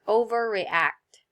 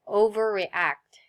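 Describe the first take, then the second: First: Said in the usual way. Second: Overreact whispered slowly, breath only, falling at the end; whispered model word. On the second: Shown as a demonstration. Teacher modeling the word for students, slow whisper. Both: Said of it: "Can you say that word?".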